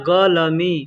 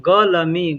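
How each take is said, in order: No difference in how they are said.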